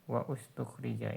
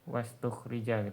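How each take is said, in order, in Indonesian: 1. Hamzah awal pada ustukhrija jelas diucapkan. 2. Hamzah awal dihilangkan dan kata-katanya menyambung. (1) "Ini ana sengaja domahkan awalnya ya untuk hamzah wasalnya supaya jelas" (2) "Kalau wasal kan dia nggak dibaca dia"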